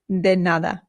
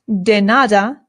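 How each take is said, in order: First: The D is soft, tongue near the teeth. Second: The D is hard, like an English D. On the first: The speaker calls it right. "the D in Spanish is much softer" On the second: The speaker calls it wrong. "this is not de nada"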